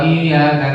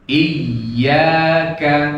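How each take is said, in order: First: The y sound is short and single, said fast. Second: The y sound is held doubled. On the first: To the sunlight. The speaker calls it wrong. "apalagi kalau cepat cepat... Tasdidnya hilang" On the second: Only to You. The speaker calls it right. "Ya-nya ada apanya? Tasdid"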